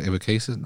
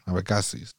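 First: Abecasis anglicized, AY-vuh-KAY-sis; how Americans will say Abecasis; American pronunciation. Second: Abecasis said the Spanish way, open a vowels, AH-beh-KAH-sis; Spanish-style Abecasis; Spanish pronunciation. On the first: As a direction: Abecasis said with English AY vowels. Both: Shown as a demonstration. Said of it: "What are they gonna say?".

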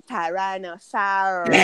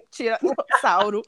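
First: "Tyrannosaurus" said the English way, slowly; English pronunciation. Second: "Tiranossauro" said the Brazilian way, slowly; Portuguese pronunciation. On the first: (pronúncia inglesa, devagar) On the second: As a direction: give "Tiranossauro" the Portuguese sounds. (pronúncia portuguesa) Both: Shown as a demonstration. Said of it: "é outra pronúncia".

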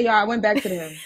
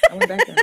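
First: Said in the usual way. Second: "went" jumps much higher, rising; high disbelieving repeat. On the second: Real, not acted.

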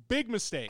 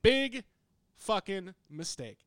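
First: Much higher and louder, punchy; loud emphasis. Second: Much higher and much louder, then drawn out; louder and slower. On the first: Telling the co-host his big error, loudly. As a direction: hit it like a verdict. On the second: Telling the co-host his error again, even louder and slower. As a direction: drag the last words out for weight. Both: Real, not acted.

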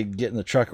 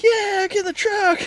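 First: Said in the usual way. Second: Very high, slow, silly dog voice; goofy bird dog voice. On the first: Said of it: "like, I'll say". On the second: Retold or imitated. Owner voicing his bird dog answering a command, very high and silly. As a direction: squeak it like a dopey eager pup. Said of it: "and the bird dog's like".

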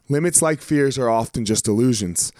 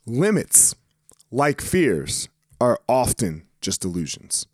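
First: Said in the usual way. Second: "Limits," "like fears," "are often just illusions" set apart by long pauses; careful redo of the quote. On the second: Shown as a demonstration. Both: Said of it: "Did I really just fuck that up?".

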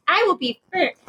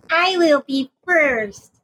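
First: High-pitched eager little pupil; twerpy student. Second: High, slowly stretched-out student brag; insistent twerpy student. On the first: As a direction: pipe up like an overkeen student. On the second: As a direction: drag out each word like a determined little swot. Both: Acted. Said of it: "because I'm a little twerpy student".

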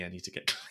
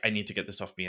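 First: Hushed whisper breaking into a laugh; mock desperate whisper; whispered plea. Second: Quietly pleading to get clean; lowered, half-muttered need; lightly voiced disgust; mock desperate mutter. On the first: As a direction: whisper it, giggling at the end. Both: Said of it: "I'm like".

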